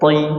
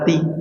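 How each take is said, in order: First: The consonant is heavy, with full thickness. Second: The consonant is light, without thickness. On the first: The speaker calls it right. "Harusnya gimana?" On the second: The speaker calls it wrong. "jangan sampai huruf to dibaca ti"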